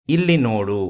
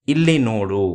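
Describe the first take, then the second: No difference in how they are said.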